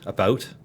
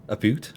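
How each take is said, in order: First: Said in the usual way. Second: "boot" with a long oo; mock Canadian about. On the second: Shown as a demonstration. Streamer checking own vowels, "boot" with oo. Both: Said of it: "I usually only say a boot when".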